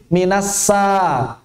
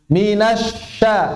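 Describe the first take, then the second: First: The consonant is an 's' sound. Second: The consonant is a 'sh' sound. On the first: The speaker calls it wrong. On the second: The speaker calls it right.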